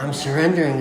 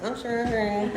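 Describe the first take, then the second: First: Said in the usual way. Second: "surrendering" high and giggly; amused at himself, a higher laughing "I'm surrendering". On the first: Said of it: "I was like". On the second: Retold or imitated. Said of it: "I'm like".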